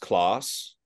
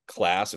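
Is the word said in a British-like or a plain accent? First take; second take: British-like; plain. First: It is said in a British-like accent. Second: It is said in the speaker's plain accent.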